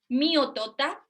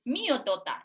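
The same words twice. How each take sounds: First: Said in the usual way. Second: "Mío, tota" with a mild cross fall on mío; a touch of toddler annoyance, falling firmly; mock angry. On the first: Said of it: "si el niño dice". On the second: Shown as a demonstration. Speech therapist voicing an angry toddler, lightly.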